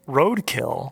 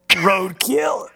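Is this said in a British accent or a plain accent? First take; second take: plain; British. First: It is said in a plain, unaffected accent. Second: It is said in a put-on British accent.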